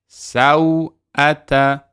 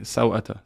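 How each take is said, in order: First: The word is drawn out, each letter articulated. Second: The word is said quickly and lightly. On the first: This is careful recitation style. "I'm really exaggerating" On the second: This is ordinary reading of normal text.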